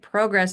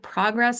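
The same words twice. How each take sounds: First: The word is pronounced the Canadian way. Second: The word is pronounced the American way. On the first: "what we generally say here" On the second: "the American way of saying it"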